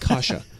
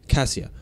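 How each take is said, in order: First: The name sounds like the cereal kasha. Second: The name does not sound like the cereal. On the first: The speaker calls it wrong. "it's not Kasha. We are not talking about cereal here" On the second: The speaker calls it right. "It's Cassia"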